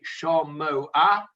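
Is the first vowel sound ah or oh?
oh. The first vowel is pronounced oh.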